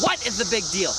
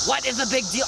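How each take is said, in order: First: "what" stressed, rest lighter. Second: "big" stressed in a plain question. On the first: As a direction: punch the first word "what". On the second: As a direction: lean on the word "big". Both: Shown as a demonstration. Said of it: "I'm asking you".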